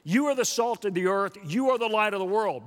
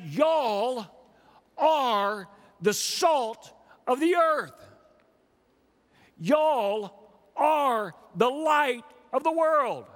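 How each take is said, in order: First: YOU stressed as the one addressed; emphatic YOU. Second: Slow, high, each phrase set apart; stretched-out, raised Y'ALL with deliberate pauses; emphatic Texan Y'ALL. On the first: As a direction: lean on YOU at each start, pitched up. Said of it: "in an emphatic way". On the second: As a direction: proclaim Y'ALL, pausing before ARE. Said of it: "he would say". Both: Retold or imitated.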